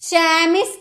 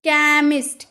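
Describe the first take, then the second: First: The word starts with a ch sound. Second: The word starts with a k sound. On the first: The speaker calls it wrong. "चैमिस्ट नहीं" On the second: The speaker calls it right. "क का sound निकला"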